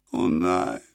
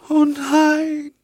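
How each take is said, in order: First: Low, quiet despairing moan, "nein" sinking. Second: A moan that leaps up high on "oh"; rising cry. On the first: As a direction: groan the words low. (leises, tiefes Stöhnen auf "nein") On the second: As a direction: let "oh" break upward into a cry. (hoher, klagender Aufschrei auf "oh") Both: A narrator's reading. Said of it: "stöhnte das Mädchen".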